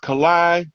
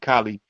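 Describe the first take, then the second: First: The name ends with an 'eye' sound. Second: The name ends with an 'ee' sound. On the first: The speaker calls it right. "but it's Kalai Amun Ra" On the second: The speaker calls it wrong. "I be pronouncing his name Kali"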